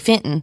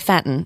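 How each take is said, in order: First: Fenton is said with a Southern accent. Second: Fenton is said with a Michigan accent. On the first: "in Arkansas they would say Fenton" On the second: "in Michigan they would say Fenton"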